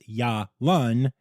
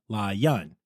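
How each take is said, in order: First: The name begins with a Y sound. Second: The name begins with an L sound. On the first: The speaker calls it right. "the panda's name is Ya Lun" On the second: The speaker calls it wrong. "not La Yun"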